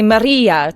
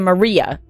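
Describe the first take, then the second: First: It is said with a Spanish accent. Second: It is said with an English accent. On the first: "in Spain they'd say" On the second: "they wouldn't say"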